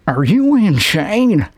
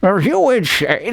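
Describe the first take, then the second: First: Slow, slurred actor's line reading; Peter Giamatti. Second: Second actor's take, quicker and slurred; retry the question with rising pitch at the end; Peter Giamatti. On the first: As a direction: stretch the question out like an actor testing it. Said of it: "delivering this line". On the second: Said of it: "Let me try it again". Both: Acted.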